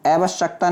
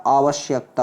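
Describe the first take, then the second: First: आवश्यकता said "ae-vash-akta", no y; wrong pronunciation. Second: आवश्यकता said "aa-vash-yakta", with y; correct pronunciation. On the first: Teacher shows the error, आवश्यकता as "ae-vash-akta". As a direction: open आवश्यकता on ae and drop y. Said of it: "ऐसे नहीं बनेगा बच्चे". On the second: Teacher corrects students, आवश्यकता as "aa-vash-yakta". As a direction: open on aa and sound y in आवश्यकता. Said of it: "किससे बनेगा?". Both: Shown as a demonstration.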